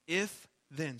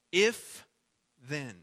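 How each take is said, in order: First: Said in the usual way. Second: "If" punched out loud, then a pause before "then"; stress on IF. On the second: Shown as a demonstration. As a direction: hit "If" hard, then let "then" drop. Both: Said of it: "what we have here is an if then statement".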